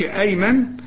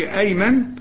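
First: The vowel after the m is short. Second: The vowel after the m is short.

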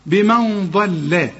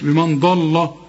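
First: The L sound is light and thin. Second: The L sound is heavy and thick. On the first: The speaker calls it right. "اللام مرققة" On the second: The speaker calls it wrong. "مش بمن ضل"

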